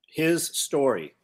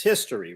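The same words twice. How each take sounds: First: Slow, His and story as two words; His story, each word weighed apart; split into his story. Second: Said in the usual way. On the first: Shown as a demonstration. Pun on history for the podcast hosts, split slowly.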